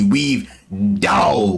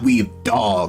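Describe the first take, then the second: First: The last word is said as slangy 'dawg'. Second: The last word is said as plain 'dog'. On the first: The speaker calls it right. "Weave D A double G" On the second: The speaker calls it wrong. "not Weave D O G"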